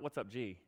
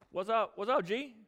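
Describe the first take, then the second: First: Said in the usual way. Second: High, breezy mock greeting; flippant. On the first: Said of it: "No, not". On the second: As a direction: toss it off like an over-familiar pal. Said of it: "with the same kind of flippancy that girl does".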